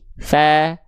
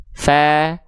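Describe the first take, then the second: Both takes have the same delivery.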